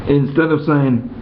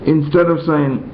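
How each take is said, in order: The two takes are said the same way.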